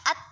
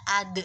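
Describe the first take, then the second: First: The final consonant sounds like a flat t. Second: The final consonant is a d with an echo. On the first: The speaker calls it wrong. "bukan dibaca at" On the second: The speaker calls it right. "tapi dibaca ad. De-nya itu maksudnya adalah yang dimaksud sebagai suara tambahan"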